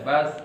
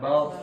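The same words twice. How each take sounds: First: The s is light, with the tongue's back low. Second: The s is heavy, with the tongue's back raised. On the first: The speaker calls it right. "tapi ringan saja" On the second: The speaker calls it wrong. "bukan bas bukan diangkat bagian belakang lidahnya"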